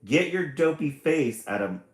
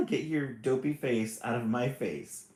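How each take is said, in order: First: A loud, higher mock snarl. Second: The snarl breaking into a laugh; laughing through it. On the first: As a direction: bark it at her like a grumpy brother. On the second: Acted. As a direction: try to stay grumpy but laugh. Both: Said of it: "snarled brother".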